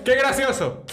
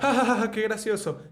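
First: Higher and louder, still giggling; mock fan gushing over a funny clip; laughing viewer. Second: High fake chuckle, amused viewer; hammed-up viewer laughing at a clip; mocking laugh. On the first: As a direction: repeat it amused and lifted. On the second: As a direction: laugh along like a tickled fan watching. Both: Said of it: "él se pone así que".

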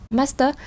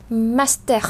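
First: "master" theo tiếng Anh, không rõ R cuối; phát âm kiểu Anh. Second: "master" theo tiếng Pháp, bật rõ R ở cuối; phát âm kiểu Pháp. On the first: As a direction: read "master" the English way, ending in a schwa. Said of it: "tiếng Anh là đọc là master". (đọc kiểu tiếng Anh) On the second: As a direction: say "master" slowly with a French R at the end. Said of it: "tiếng Pháp thì sẽ là master". (đọc kiểu Pháp, rõ âm R cuối) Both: Shown as a demonstration.

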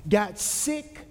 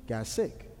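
First: GOT SICK repeated at full voice; emphatic. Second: Low, soft understatement; hushed. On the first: Preacher repeating the baby's fate to the congregation, emphatic. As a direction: lift "Got sick" out firmly, landing on "sick". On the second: Preacher telling that the baby fell sick, hushed. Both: Acted.

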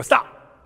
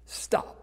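First: Put-on a louder playful "Stop!" like a little girl; child's stop call. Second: A soft whispered "Stop."; quiet stop. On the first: Granddaughter calling out the freeze game, loud playful call. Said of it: "And then she'd go". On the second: Shown as a demonstration. Preacher urging the congregation toward stillness, hushed whisper. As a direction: say "Stop." under the breath, hushed. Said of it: "that's stillness".

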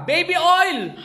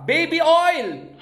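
First: High, hammed-up punchline; joke punchline. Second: High, drawn-out punchline with a hammed-up twist; joke punchline. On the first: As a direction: pop the punchline "Baby oil!" up high for the gag. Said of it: "sabi ni Bogs Vargas". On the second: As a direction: stretch the punchline "Baby oil!" slowly and high to sell the joke. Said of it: "ito, joke time".

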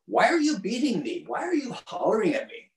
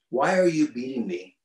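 First: Much higher, strange pleading donkey voice. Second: Said in the usual way. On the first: Retold or imitated. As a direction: squeak it out like a hurt, bewildered donkey.

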